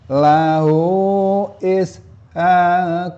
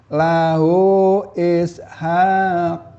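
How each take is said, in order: Both takes have the same delivery.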